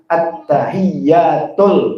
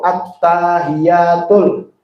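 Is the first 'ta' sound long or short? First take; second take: short; long. First: The first 'ta' is short, with a doubled y. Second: The first 'ta' is drawn out long. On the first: The speaker calls it right. "taknya nggak panjang" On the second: The speaker calls it wrong. "at-ta panjang tuh"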